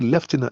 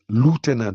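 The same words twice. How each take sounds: First: It is said with a British pronunciation. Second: It is said with an American pronunciation. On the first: "We say lieutenant. And lieutenant is original because it's British" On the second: "the Americans say lieutenant"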